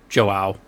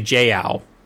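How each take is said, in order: First: The name is said with the vowels in order. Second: The name is said with the vowels swapped. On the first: The speaker calls it right. "I seem to have the letters in the wrong order" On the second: The speaker calls it wrong. "I keep wanting to say Jiao instead of Joao"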